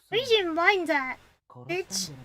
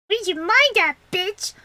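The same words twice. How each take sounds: First: It is said without the character's voice. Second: It is said in the character's voice.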